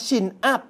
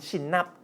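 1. "chin up" พูดแยกกัน 2. เสียง n เชื่อมเข้ากับ up เป็นหน่วยเดียว

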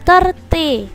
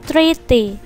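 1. Suku kata pertama terdengar seperti 'thir'. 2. Suku kata pertama terdengar seperti 'three'. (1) "Karena terjadi perubahan sehingga 30" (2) "enggak boleh 30"

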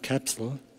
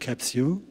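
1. Es wird amerikanisch ausgesprochen. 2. Es wird britisch ausgesprochen. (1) "Die Amerikaner sagen Capsule, so wie Kapsel" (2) "die Engländer sagen Capsule"

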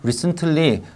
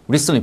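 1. 한국식 음절로 발음해요. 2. 영어 발음으로 발음해요. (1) "우리끼리는 이제 recently, brightly 이렇게 하지만" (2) "영어로는"

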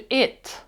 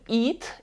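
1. Голосний — короткий проміжний звук. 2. Голосний більш крайній, а не проміжний. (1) "Я кажу it, щось між посередині" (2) "Я не кажу it"

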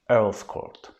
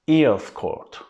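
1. 'Earls' kelimesi, 'ear' kelimesinin ünlüsüyle başlamaz. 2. 'Earls' kelimesi, 'ear' kelimesinin ünlüsüyle başlar. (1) "Ama Earls Court olarak telaffuz ediliyor" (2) "Şimdi ear, kulak demek İngilizce'de. Bunu bildikleri için bu şekilde telaffuz ediyorlar"

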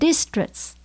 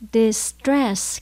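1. Trọng âm ở âm thứ nhất. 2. Trọng âm ở âm thứ hai. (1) "không phải là distress. Distress là sai nhé các bạn" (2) "Mình nhấn âm số 2 nhé"

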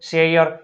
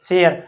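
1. સ્વર 'r' પહેલાં y-અવાજમાં સરકે છે. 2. સ્વર સાદો ટૂંકો 'e' અવાજ છે. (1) "પરંતુ સાચો ઉચ્ચાર આવો થાય છે" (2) "આપણે બોલે છે શું?"

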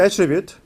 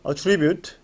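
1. 명사식으로 발음됩니다. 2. 동사식으로 발음됩니다. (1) "명사일 때 attribute" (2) "동사일 때 attribute"

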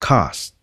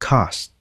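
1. Nguyên âm này nằm giữa a và o. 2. Nguyên âm này nằm giữa a và o.

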